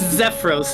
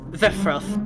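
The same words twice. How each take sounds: First: The final s sounds like a plain s. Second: The final s sounds lisped, like th. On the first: "is how you would say it normally" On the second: "Now I'm just lisping the, the second S"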